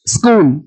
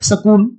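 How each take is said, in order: First: The s runs straight into the k. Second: A short vowel is inserted after the s. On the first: The speaker calls it right. "ए सा सिटी मारो" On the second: The speaker calls it wrong. "अभी अगर बच्चा हरियाणा का बोलेगा"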